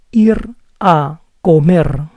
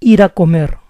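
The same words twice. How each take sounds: First: Ir a comer said slowly, each word apart. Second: Faster. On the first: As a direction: spell it out slowly with a rolled R. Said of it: "If I say it slowly". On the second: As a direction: run ir a comer together quickly. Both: Shown as a demonstration.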